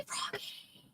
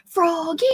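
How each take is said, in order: First: Froggy whispered like a shout, no voice; Froggy as a silent shouted whisper; whisper yelling. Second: Froggy called out high and rising; calling out. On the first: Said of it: "but whisper, scream again". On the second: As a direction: call Froggy across the room. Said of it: "I'm trying to scream your name". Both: Real, not acted.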